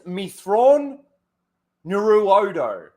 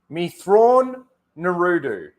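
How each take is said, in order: First: The last part is said as 'Nuruodo'. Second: The last part is said as 'Naruto'. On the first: The speaker calls it right. "It's Mithron Nuruodo" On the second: The speaker calls it wrong. "he's got the Me Thrawn part correct. But the Naruto part, I don't know"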